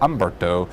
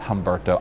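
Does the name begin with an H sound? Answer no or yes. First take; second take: no; yes. First: The name starts with a vowel, no H. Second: The name starts with an H sound. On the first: The speaker calls it right. "the H is silent" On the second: The speaker calls it wrong. "the H is silent, so it's not Humberto"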